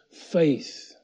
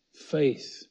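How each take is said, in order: Both takes have the same delivery.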